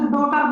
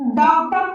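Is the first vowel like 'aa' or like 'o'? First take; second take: like o; like aa. First: The first vowel sounds like 'o'. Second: The first vowel sounds like 'aa'. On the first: The speaker calls it wrong. "ना कि डोटर पढ़ेंगे" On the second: The speaker calls it right. "इसको डाउटर पढ़ेंगे"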